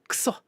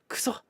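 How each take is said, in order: No difference in how they are said.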